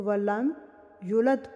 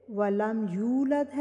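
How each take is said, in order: First: يُلَدْ said quickly, the waw dropped; وَلَمْ يُلَدْ with a short u and no waw; dropped letter. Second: يُولَدْ with a long u; وَلَمْ يُولَدْ, the waw clearly held; correct reading. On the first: (غلط يُلَدْ، واو گرا کر) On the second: (درست يُولَدْ، واو کے ساتھ) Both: Shown as a demonstration. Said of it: "واو کو گرا دیا جائے".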